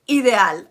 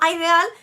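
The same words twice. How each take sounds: First: The word is said the Spanish way. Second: The word is said the English way. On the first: The speaker calls it right. "it's ideal, okay? Like idea" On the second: The speaker calls it wrong. "It's not ideal"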